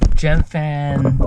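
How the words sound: It is said in an American accent.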